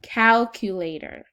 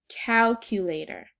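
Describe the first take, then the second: First: Calculator said slowly and loudly, syllable by syllable; dictation word. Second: Said in the usual way. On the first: Shown as a demonstration. Teacher dictating a spelling word to the class, slow and loud. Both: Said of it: "Here are the words".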